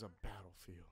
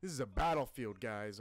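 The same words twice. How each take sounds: First: Said in the usual way. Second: Loud awed battlefield shout. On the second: Real, not acted. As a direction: yell it out in awe. Shouting at the war scene.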